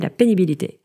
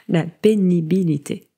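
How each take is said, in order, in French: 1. Le mot est prononcé rapidement. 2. Le mot est prononcé lentement.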